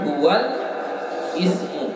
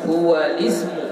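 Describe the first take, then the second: First: Ismu starts separately with a glottal catch. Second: Ismu runs smoothly on from huwal, no catch. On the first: The speaker calls it wrong. "bukan huwal ismu" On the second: The speaker calls it right. "hamzahnya tidak kita baca"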